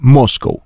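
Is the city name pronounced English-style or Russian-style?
English. The name is pronounced the English way, like 'cow'. The speaker calls it wrong. "а не Москва. Корова мычит"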